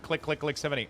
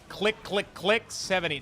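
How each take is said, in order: First: It is said at a quick pace. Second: It is said at a slow pace.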